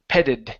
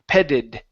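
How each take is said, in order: No difference in how they are said.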